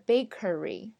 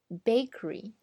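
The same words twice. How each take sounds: First: The word is said with three full syllables. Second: The middle syllable is dropped, leaving two. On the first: The speaker calls it wrong. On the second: The speaker calls it right.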